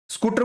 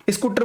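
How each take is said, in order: First: Said in the usual way. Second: "स्कूटर" with a short i before the s; regional mispronunciation. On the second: Retold or imitated. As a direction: imitate children saying "स्कूटर" as i-scooter. ("स्कूटर" के आगे इ लगाकर) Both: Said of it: "स्कूटर को क्या बोलेंगे".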